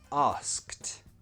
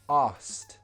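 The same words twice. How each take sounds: First: Said slowly with the k sound pronounced. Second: Said quickly with the k sound dropped. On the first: The word is said on its own. "if you pronounce it slowly and just as one word" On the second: The word is said naturally in a sentence. "In a sentence, we would remove the k sound"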